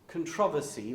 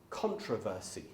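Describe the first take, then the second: First: It is said in a non-American way. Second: It is said in an American way.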